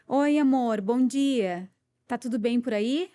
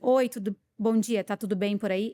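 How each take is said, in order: First: It is said in a warm, friendly tone. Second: It is said in a cold, curt tone.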